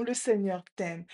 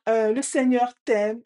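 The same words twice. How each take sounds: First: Quieter reply to the call; imitated echo. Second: Louder, lifted declaration; father's call. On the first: Voice repeats the father's blessing, quieter echo. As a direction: hand it back with less force. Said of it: "Et la voix répond". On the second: Retold or imitated. Father calls a blessing to the echo, louder. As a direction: send it out firmly to the echo. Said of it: "Et il dit".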